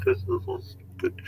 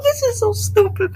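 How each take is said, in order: First: Breathy whisper of mock despair; hushed, defeated whisper. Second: Mock sobbing. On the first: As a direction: whisper it like you give up. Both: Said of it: "And I'm like".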